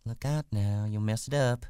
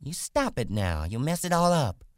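First: Higher woman's voice, cautioning; uneasy warning. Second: High, loud woman's scolding, rising in pitch; angry cry. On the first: Acted. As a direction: warn him off, not yet angry. Wife warns before growing angry. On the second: A narrator's reading. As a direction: scold him sharply and angrily. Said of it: "she cried angrily".

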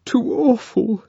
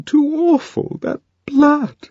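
First: High, upset Lenina voice; high distressed murmur; tearful. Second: High distressed voice, rising on that blood; horrified and close to tears; high shaken cry; tearful. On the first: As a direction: shaken and close to tears. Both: A narrator's reading. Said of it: "Lenina was still sobbing".

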